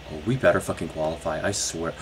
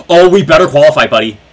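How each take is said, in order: First: Quiet fast threat under breath; tense mutter. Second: Louder, fast, anxious plea; gasping loud plea. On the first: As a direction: mutter it through the stress. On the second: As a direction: gasp and blurt it out. Gasp then loud fast plea. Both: Real, not acted.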